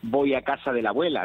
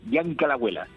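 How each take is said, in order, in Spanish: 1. Cada sílaba de la frase se pronuncia completa. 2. Las sílabas se aprietan y se juntan. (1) "Aquí no se dice" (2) "aquí se dice Bianca la abuela, que parece africano"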